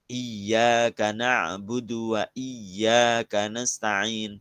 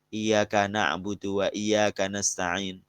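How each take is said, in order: First: The y sound in iyyaka is held doubled. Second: The y sound in iyyaka is said single. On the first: The speaker calls it right. "Tasdidnya yang ada berapa? empat belas" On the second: The speaker calls it wrong. "Jangan dibaca"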